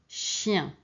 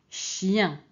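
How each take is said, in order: The two takes are said the same way.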